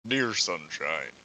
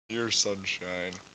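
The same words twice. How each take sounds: First: It is said in a put-on Sayori voice. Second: It is said in the speaker's natural voice.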